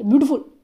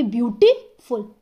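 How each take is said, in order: First: beautiful rushed into one quick blur; beautiful squashed into one fast word; too hurried. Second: beautiful split, gap after beauty; beautiful in two separated parts; pause mid-word. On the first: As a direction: rattle off beautiful with no gap. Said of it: "पर ऐसे थोड़ी ना बोल देंगे". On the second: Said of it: "पर इनको हम ऐसे बोलेंगे". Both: Shown as a demonstration.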